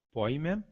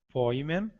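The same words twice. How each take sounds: First: "Poimen" stressed on the i, po-I-men; accent on iota. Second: "poimen" stressed on its last syllable, poi-MEN; end-stressed Greek "poimen", rising on "men"; accent on eta. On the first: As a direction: lean on the i inside "Poimen". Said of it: "com acento no i". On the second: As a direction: lift the final "men" of "poimen". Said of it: "com acento no eta". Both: Shown as a demonstration.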